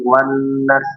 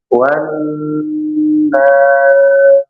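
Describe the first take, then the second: First: The long vowel is cut short. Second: The long vowel is held for six counts. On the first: The speaker calls it wrong. "tidak dibaca pendek" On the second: The speaker calls it right.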